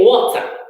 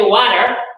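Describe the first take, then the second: First: It is said with a British accent. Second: It is said with an American accent.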